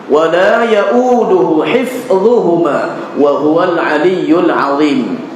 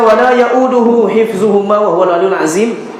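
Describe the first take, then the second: First: The consonant in 'azim' is a tongue-tip dh. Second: The consonant in 'azim' is a plain z. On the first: The speaker calls it right. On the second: The speaker calls it wrong. "ini bukan ayat kursi. Ayat kursi tak dibaca macam itu"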